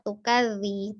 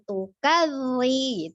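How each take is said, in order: First: The dh sound is said lightly and plainly. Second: The dh sound is pressed hard and heavy. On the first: The speaker calls it right. "Biasa saja" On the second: The speaker calls it wrong. "jangan terlalu ditekan"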